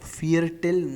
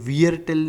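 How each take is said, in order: First: The word begins with an f sound. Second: The word begins with a v sound. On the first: The speaker calls it right. "ये फाव है" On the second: The speaker calls it wrong. "ये वियर टिल नहीं है"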